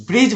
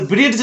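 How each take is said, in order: First: ब्रिज as "brij", no D; silent D. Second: ब्रिज wrongly said as "brid-j"; D sounded. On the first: Teacher giving the right reading, D silent in ब्रिज. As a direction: glide straight to the J in ब्रिज. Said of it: "ब्रिज बोलना है". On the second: Teacher warning students, wrong D sounded in ब्रिज. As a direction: put an audible D before the J in ब्रिज. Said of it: "ब्रिज नहीं बोलना है". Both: Shown as a demonstration.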